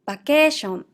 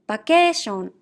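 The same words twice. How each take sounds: No difference in how they are said.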